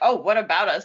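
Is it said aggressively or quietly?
aggressively. It is said aggressively and forcefully.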